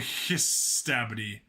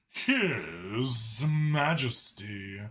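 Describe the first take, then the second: First: It is said in an ordinary, casual voice. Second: It is said in a lofty, pompous voice. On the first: The speaker calls it wrong. "They don't pronounce it like" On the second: The speaker calls it right. "They do the high and mighty voice"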